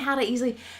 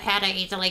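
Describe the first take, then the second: First: It is said with high, lively energy. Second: It is said with low, flat energy. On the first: The speaker calls it right. "My energy's nice and high" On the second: The speaker calls it wrong. "this is poop"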